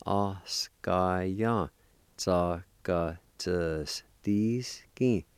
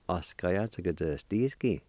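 First: "oskaya tsakatsuski" in long, separated syllables; slow syllable-by-syllable. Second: Said in the usual way. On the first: Shown as a demonstration. Teacher putting the parts together, slow syllable-by-syllable. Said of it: "practice and go slow". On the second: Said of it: "say 'em a little bit faster".

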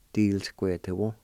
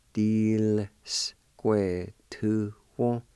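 First: Said in the usual way. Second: "Square two one." drawn out very slowly; slow demo. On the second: Shown as a demonstration. Teacher modelling "Square two one." for learners, very slow. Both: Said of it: "pronounce the L sound with the D I like this".

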